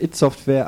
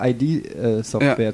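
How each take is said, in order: First: Id is spoken as a single short word. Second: Id is spoken as two separate letters. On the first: The speaker calls it right. "offiziell It heißt" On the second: The speaker calls it wrong. "den berühmten Fehler"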